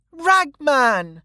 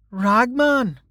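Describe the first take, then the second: First: Put-on very high little-girl cry of greeting; delighted child. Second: High, puzzled echo of the name; newcomer's voice. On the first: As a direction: call out happily as a child running to a friend. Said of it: "laughing and jumping off the chair". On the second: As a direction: repeat the name as an onlooker, a little below the child. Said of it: "said a new voice". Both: A narrator's reading.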